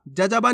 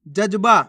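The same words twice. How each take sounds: First: जजबा as ja-ja-baa; vowel after each ज in जजबा; full-letter misreading. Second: जज्बा as jaj-baa; no vowel after the second ज in जज्बा; half-letter pronunciation. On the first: Teacher rejects this reading, जजबा with full ज. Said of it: "नहीं". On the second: Teacher answers how to read it, जज्बा with half ज. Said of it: "कैसे पढ़ेंगे". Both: Shown as a demonstration.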